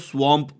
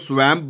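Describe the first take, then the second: First: The vowel sounds like the 'o' in 'cot'. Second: The vowel sounds like the 'a' in 'cat'. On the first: The speaker calls it right. "इसको स्वॉम्प pronounce करते हैं" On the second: The speaker calls it wrong. "बचपन से मैं तो इसको स्वैम्प बोलता था"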